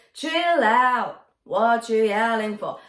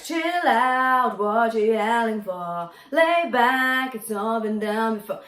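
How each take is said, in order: First: Chill out, pause, then what you yelling for; pause after out. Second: Chill out, what you yelling for sung smoothly with no break; smooth, no pauses. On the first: Coach shows the pause the singer makes, chill out then a break. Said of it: "It's like a little pause there". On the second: Coach shows the wrong smooth version without pauses. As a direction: run the lines together legato. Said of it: "just singing it all smoothly". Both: Shown as a demonstration.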